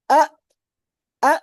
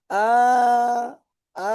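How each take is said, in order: First: Short আ, stopped abruptly; voice cut off. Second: Long, held-out আ; voice kept running. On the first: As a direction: say আ with the voice shut off at once. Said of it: "তখন আমার আওয়াজটাও বন্ধ থাকছে". (আ, আওয়াজ হঠাৎ বন্ধ করে) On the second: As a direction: stretch আ with the voice left on. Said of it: "আমি যদি আওয়াজ চালু রাখি". (আ, আওয়াজ চালু রেখে টেনে) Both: Shown as a demonstration.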